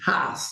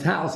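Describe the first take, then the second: First: It is said in a Pittsburgh accent. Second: It is said in a standard accent.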